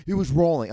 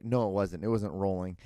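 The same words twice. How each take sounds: First: Loud, high contradiction; angry insistence. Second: Said in the usual way. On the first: Retold or imitated. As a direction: insist like an irate golfer. Retold golfer insisting in the quarrel.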